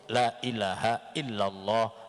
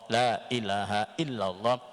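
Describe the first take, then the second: No difference in how they are said.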